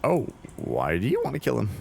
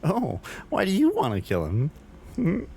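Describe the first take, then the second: First: It is read in a plain, neutral voice. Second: It is said in a flirty, playful voice.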